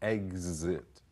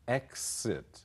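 First: The x is pronounced with a z sound. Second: The x is pronounced with an s sound.

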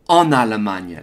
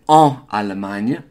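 First: The n is linked into the start of Allemagne. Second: The n is not carried over into Allemagne. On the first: The speaker calls it right. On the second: The speaker calls it wrong. "we don't say en Allemagne"

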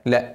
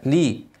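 First: The L is followed by an a vowel. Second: The L is followed by an i vowel. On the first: The speaker calls it wrong. "مش لا" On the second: The speaker calls it right. "لازم اكسر اللام لي"

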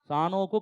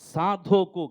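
First: The name is said with an n sound. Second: The name is said with a d sound. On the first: The speaker calls it wrong. "సానోకు కాదు" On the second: The speaker calls it right. "గట్టిగా స్పష్టం పలకాల"

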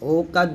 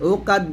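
First: The first vowel is an open 'o' sound. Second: The first vowel is a rounded 'u' sound. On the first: The speaker calls it wrong. "ওকাদ বলবেন না" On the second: The speaker calls it right. "উকাদ বলে আমরা দেখি"

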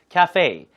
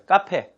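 First: It is pronounced the English way. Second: It is pronounced the Korean way, like kape. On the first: Listeners understood it. The speaker calls it right. "cafe 발음 이음절이에요" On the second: Listeners did not understand it. The speaker calls it wrong. "카페라고 못 알아듣더라고요"

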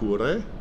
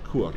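First: The word ends with a final vowel. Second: The word ends on the consonant r. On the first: The speaker calls it wrong. "we know it was not kure" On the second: The speaker calls it right. "it's kur"

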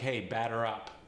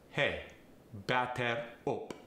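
First: It is in American English, with a flapped T. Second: It is in a Farsi accent, with a clear T.

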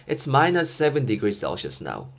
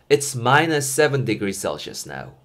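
The two takes are said the same way.

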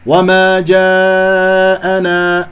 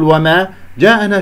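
First: The vowel before the hamza is held long. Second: The vowel before the hamza is kept short. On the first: The speaker calls it right. "مد واجب متصل 4-5 حركات" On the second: The speaker calls it wrong. "لا تقول وما جاءنا"

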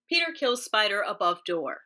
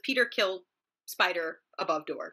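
First: It is said in a transatlantic accent. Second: It is said in a normal speaking voice.

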